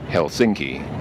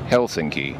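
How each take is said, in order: First: The stress is on the second syllable. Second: The stress is on the first syllable. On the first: The speaker calls it wrong. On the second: The speaker calls it right. "almost all Finnish words put the emphasis on the first syllable, so the city is actually pronounced"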